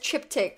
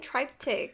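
First: The word ends with a 'k' sound. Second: The word ends without a 'k' sound. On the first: The speaker calls it right. "Like you just say like a K at the end" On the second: The speaker calls it wrong. "I've been saying it wrong. I've been saying triptych"

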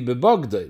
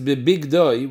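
First: The second vowel is an 'o' sound. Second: The second vowel is an 'i' sound. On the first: "the way to read it without a yud would be bebogdoi, with a kometz" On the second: "the kriya is bebigdoi with a chirik"

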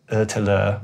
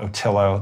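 First: The name is said with a Swedish pronunciation. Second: The name is said with an American pronunciation.

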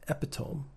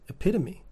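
First: The word is sounded out as it is spelled. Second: The word has its standard spoken pronunciation. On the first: The speaker calls it wrong. "I thought it was epitome" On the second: The speaker calls it right. "Do you mean epitome?"

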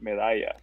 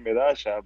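First: The double L sounds like 'y'. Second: The double L sounds like 'sh'. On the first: This is how most other Spanish speakers say it. "two L's amount to a Y sound, so you call it Medalla" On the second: This is the Argentine way of saying it. "in Argentina they say Madasha"

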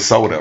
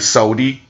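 First: The word ends with an 'uh' sound. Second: The word ends with an 'ee' sound. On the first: This is the standard way of saying it. "It's a soda" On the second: This is how it was said in the neighborhood. "I want a sodi"

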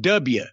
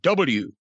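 First: The letter is said in a Southern accent. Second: The letter is said in a plain accent. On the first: The speaker calls it wrong. "if you said W instead of W" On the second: The speaker calls it right. "instead of W"

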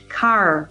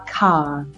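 First: The final R is pronounced, rhotic style. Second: The final R is dropped, British style.

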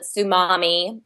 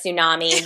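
First: The word is pronounced in a childish, altered way. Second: The word is pronounced in the usual standard way. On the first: This is how a young child says the word. The speaker calls it wrong. "she calls it tsunami" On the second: This is the normal way to say the word. The speaker calls it right. "instead of tsunami"

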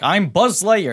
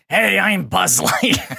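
First: It sounds younger and lighter. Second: It sounds older and growly.

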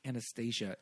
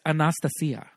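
First: The name is said with a familiar English pronunciation. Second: The name is said with a Russian-style pronunciation. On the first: The speaker calls it wrong. "Anastasia is not how you pronounce it" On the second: The speaker calls it right. "she's getting real Russian"

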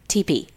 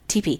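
First: The two letters are said slowly and separately. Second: The letters are run together quickly into one word.

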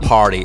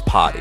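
First: The R sound is clearly pronounced. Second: The R sound is dropped. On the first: The speaker calls it wrong. "it's not party" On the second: The speaker calls it right. "We take off the R's"

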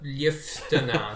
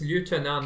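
First: It is said in the non-American way. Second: It is said in the American, French-like way. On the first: The speaker calls it wrong. "not lieutenant" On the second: The speaker calls it right. "if the French word is lieutenant"

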